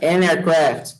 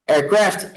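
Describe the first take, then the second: First: An aircraft, with the an said clearly; correct with an. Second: Aircraft said without the article; wrong, without an. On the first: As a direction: put an before aircraft. (an aircraft com o artigo certo) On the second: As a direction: say just aircraft, no an before it. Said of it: "o pessoal sempre quer falar". (aircraft sem o artigo) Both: Shown as a demonstration.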